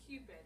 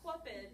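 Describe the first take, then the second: First: The word begins with a plain k sound. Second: The word begins with a kw sound. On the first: The speaker calls it right. "it's Cupid" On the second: The speaker calls it wrong. "it's not Cupid"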